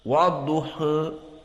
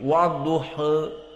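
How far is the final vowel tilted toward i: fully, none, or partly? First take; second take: partly; partly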